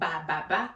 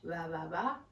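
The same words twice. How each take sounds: First: The B sound is pronounced strongly. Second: The B sound is pronounced softly. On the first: The speaker calls it wrong. "not ba ba ba" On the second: The speaker calls it right. "We don't really strongly pronounce that B"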